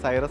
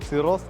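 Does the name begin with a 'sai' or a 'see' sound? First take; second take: sai; see. First: The name begins with a 'sai' sound. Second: The name begins with a 'see' sound. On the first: This is how people naturally read the spelling. The speaker calls it wrong. "ശരിക്കും സൈറസ് എന്നല്ല" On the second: This is what the maker calls it. The speaker calls it right. "Kia വിശേഷിപ്പിക്കുന്ന സിറോസ് എന്നാണ്"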